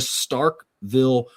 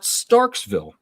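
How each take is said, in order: First: No s sound comes before 'ville'. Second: An extra s sound comes before 'ville'. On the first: The speaker calls it right. "but it's Starkville Regional" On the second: The speaker calls it wrong. "There's a lot of people out there that mispronounce that"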